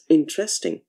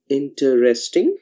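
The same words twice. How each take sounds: First: The word is said with three syllables. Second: The word is said with four syllables. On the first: "a three-syllabic word" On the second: "a four-syllabic word"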